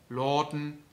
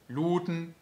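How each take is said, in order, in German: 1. Der lange Vokal ist ein offener, O-ähnlicher Laut. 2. Der lange Vokal ist ein dunkleres, reines geschlossenes O. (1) "das lange A wird O" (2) "noch stärker eingedunkelt zu einem richtigen reinen O"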